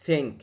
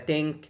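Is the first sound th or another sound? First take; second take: th; another sound. First: It starts with the tongue between the teeth. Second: It starts without the tongue between the teeth. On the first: The speaker calls it right. "لسانك هيبقى بين سنانك وتضغط وتطلع هوا" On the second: The speaker calls it wrong. "ولا think"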